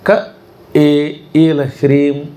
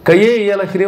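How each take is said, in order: First: Ka stops, then e is said separately. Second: Ka runs into e with a y glide. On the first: The mantra gives its proper result. The speaker calls it right. "క అక్కడ ఆపి ఏ ఈల హ్రీం అని చదవాలి" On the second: The mantra loses its intended effect. The speaker calls it wrong. "అని చదివేశారంటే ... కొంప ములిగిపోతుంది"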